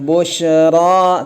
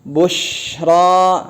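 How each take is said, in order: First: The sh sound is cut short abruptly. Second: The sh sound flows out continuously. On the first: The speaker calls it wrong. "Jangan bushra ... Kalau enggak dia akan mantul" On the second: The speaker calls it right. "tapi bushra, mengalir ya"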